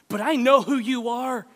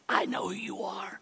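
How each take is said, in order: First: It is said in his normal speaking voice. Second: It is said in a put-on, eerie voice.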